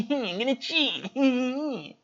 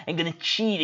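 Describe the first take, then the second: First: Higher, slow put-on Mike voice; lightly voiced goofy Mike; Mike impersonation. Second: Said in the usual way. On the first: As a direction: drag it out slowly in a silly high voice. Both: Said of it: "my best motherfucker Mike impersonation".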